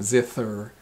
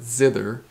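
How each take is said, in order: First: The 'th' is voiceless, as in 'thin'. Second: The 'th' is voiced, as in 'the'. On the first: The speaker calls it wrong. "not zither" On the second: The speaker calls it right. "It's a hard TH. ... but zither"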